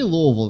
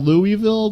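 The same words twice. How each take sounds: First: It is said the way locals say it. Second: It is said the way it looks written. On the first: "They say Louisville there" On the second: "looks like Louisville"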